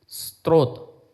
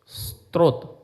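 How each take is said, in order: The two takes are said the same way.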